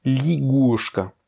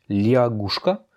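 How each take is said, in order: First: Ligushka slowly, ya reduced to i; ligushka, drawn out, li not lia; correct pronunciation. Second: Liagushka slowly with the ya sound of the spelling; as written. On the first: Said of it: "mais ça se prononce". (ligushka lentement, le ya devient i) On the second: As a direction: liagushka said slowly, lia kept. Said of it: "Ça s'écrit liagushka". (liagushka lentement, avec le ya écrit) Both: Shown as a demonstration.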